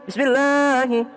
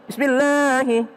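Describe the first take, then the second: No difference in how they are said.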